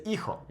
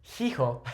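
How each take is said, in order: First: "hijo" starting straight on the "ee" vowel; silent H. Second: "hijo" with an English H sounded at the start; wrongly voiced H. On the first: Spanish teacher correcting the mistake, "hijo" with silent initial H. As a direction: say "hijo" as "ee-ho", dropping the first H. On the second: Spanish teacher showing the mistake, "hijo" with a pronounced initial H. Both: Shown as a demonstration. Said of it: "we don't pronounce that H".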